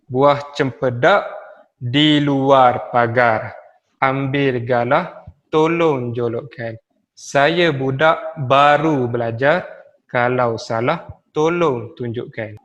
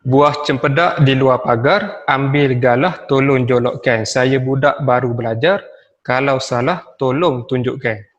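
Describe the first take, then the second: First: Slow, measured recital, pausing after each line; pantun recitation with pauses. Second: Pantun recitation. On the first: Teacher showing pupils how to read a pantun, slow and paused. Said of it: "Berhentilah sebentar setiap kali selesai membaca". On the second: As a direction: read it out firmly to the class. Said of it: "Okey, saya ambil satu contoh". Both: Shown as a demonstration.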